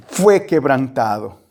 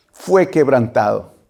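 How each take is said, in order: Both takes have the same delivery.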